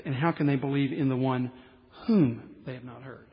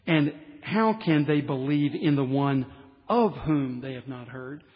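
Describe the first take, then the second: First: Pause, then land on "whom" with no "of" before it; stress on WHOM. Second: Pause, then hit "of" hard before "whom"; stress on OF. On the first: Preacher giving the original language's wording, stress on "whom". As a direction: lean on "whom" in "whom they have not heard". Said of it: "Strike the "of". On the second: Preacher quoting the NIV text to point out a mistake, stress on "of". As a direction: lean on "of" in "of whom they have not heard". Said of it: "in the N I V text it says". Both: Shown as a demonstration.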